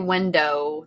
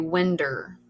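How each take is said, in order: First: The word ends in a clear 'oh' sound. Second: The word ends in an 'er' sound. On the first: This is the standard pronunciation. "Most people don't say window" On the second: This is the local Kentucky dialect form. "they say winder"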